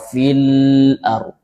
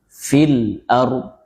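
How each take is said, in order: First: The l sound flows out too freely. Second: The l sound is between held and flowing. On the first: The speaker calls it wrong. "Tidak juga terlalu raqawah" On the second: The speaker calls it right. "Jadi fil ard"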